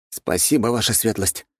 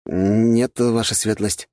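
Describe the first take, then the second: First: Thanks with a touch of feeling; heartfelt. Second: Mildly flustered, higher-pitched reply; slightly bewildered. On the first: Young prince thanking his ally after a pause, heartfelt. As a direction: give mildly heartfelt, higher-pitched thanks. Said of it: "с чувством произнёс Антон". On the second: Young prince asked about his troop numbers, slightly bewildered. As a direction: answer as if a little thrown. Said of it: "чуть растерянно ответил князь Антипов". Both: A narrator's reading.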